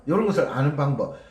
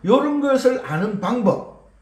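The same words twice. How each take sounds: First: 요런 것을 아는 방법 said lower and quicker, 요런 leading; quick low repeat. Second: 요런 것을 아는 방법 with 것을 lifted higher; stressed phrase. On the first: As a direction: toss off 요런 것을 아는 방법 low and fast. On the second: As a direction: lean on 것을 as you say 요런 것을 아는 방법. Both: Shown as a demonstration.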